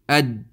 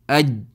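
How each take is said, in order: The two takes are said the same way.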